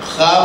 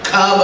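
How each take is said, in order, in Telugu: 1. ఇది గరగరలాడే గొంతు kh ధ్వనితో మొదలవుతుంది. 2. ఇది సాధారణ ఆస్పిరేటెడ్ k ధ్వనితో మొదలవుతుంది. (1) "ఖాబ్ అనాలి" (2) "ఖాబ్ అనకూడదు"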